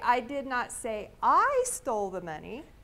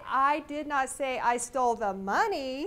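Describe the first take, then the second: First: The stress falls on the 'I' before 'stole'. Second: The stress falls on the word 'money'. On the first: Someone else stole it. "I might know who stole it, but it wasn't me" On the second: Something other than money was stolen. "I probably stole something, but it wasn't money"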